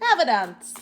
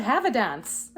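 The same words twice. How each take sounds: First: Mock posh English accent, louder; hammed-up posh English lady; playful put-on posh English voice. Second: Said in the usual way. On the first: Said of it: "Very posh". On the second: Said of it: "I just heard".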